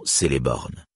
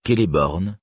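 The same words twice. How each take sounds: First: Celeborn said se-le-born, C as a French S; wrong soft C. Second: Celeborn said kel-e-born, C as a hard K, stress on the first syllable. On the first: Reader showing the mistake to avoid, Celeborn with a soft S. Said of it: "et non". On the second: Reader teaching Sindarin pronunciation, Celeborn said with a hard K. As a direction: start Celeborn on a crisp K sound. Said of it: "se prononce". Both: Shown as a demonstration.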